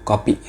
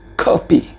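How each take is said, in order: First: "kopi" with no breath on the k; plain Indonesian "kopi"; the wrong unaspirated "kopi". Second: "kopi" with a puff of air on the k; aspirated English-style "kopi". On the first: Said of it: "Bukan kopi". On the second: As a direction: breathe out on the k of "kopi". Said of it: "tapi kopi". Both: Shown as a demonstration.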